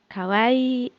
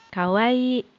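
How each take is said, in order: Both takes have the same delivery.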